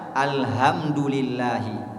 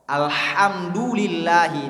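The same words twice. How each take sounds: First: The h is a soft, breathy sound. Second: The h is a harsh, tight throat sound. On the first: The speaker calls it wrong. "diganti huruf H dengan H" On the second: The speaker calls it right. "alhamdulillahi dibaca"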